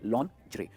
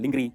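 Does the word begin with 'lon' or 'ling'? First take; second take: lon; ling. First: It starts 'lon' and ends with 'ray'. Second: It starts 'ling' and ends with 'ree'. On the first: The speaker calls it right. "क्या कहेंगे इसे?" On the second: The speaker calls it wrong. "बहुत सारे लोग इसे कहते हैं"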